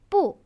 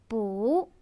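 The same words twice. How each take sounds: First: The word is said on a falling tone. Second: The word is said on a rising tone. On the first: "is normally in the fourth tone" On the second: "the second tone"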